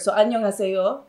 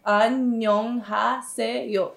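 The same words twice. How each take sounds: First: Said in the usual way. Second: Annyeonghaseyo very slow, each syllable separate; An-nyeong-ha-se-yo, one syllable at a time. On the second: Shown as a demonstration. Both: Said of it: "syllable by syllable".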